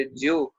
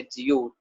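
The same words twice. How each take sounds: First: जियो squeezed to one syllable, jyo; second form. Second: जियो as two syllables, ji-yo; respectful form. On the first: Teacher giving the word for "just as", जियो as jyo. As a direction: drop the i in जियो, straight to jyo. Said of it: "जिस तरह". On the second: Teacher explaining the respect word, जियो said ji-yo. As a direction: keep the i audible in जियो. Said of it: "as a respect में वर्ता जाता है". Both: Shown as a demonstration.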